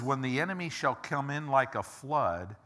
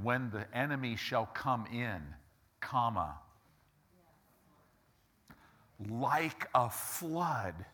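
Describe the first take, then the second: First: The pause comes after 'flood'. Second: The pause comes after 'come in'.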